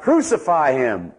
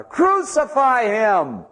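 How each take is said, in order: First: A mild mock crowd yell, drawn out slowly. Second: "Crucify him!" shouted much higher and stretched out very slowly; louder crowd shout. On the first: Preacher voicing the crowd's first cry to Pilate, mild slow yell. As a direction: call "Crucify him!" slowly, only a little raised. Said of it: "And they yell out". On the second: Acted. Preacher voicing the crowd shouting all the louder, high slow shout. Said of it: "And they shouted all the louder".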